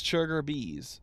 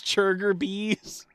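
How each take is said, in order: First: Churger Bees said softly with a settled falling end; spoonerism. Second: Churger Bees asked slowly with a questioning rise, swapping the ch and b; spoonerism. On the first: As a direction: state Churger Bees plainly, swapped sounds. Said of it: "that spoonerism". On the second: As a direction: read out Churger Bees slow and puzzled. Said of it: "I love spoonerisms". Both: Retold or imitated.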